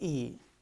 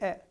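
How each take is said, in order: First: It is said like the letter's name. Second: It is said as the vowel sound. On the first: The speaker calls it wrong. "we don't say E" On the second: The speaker calls it right. "we say E ... the sound is different"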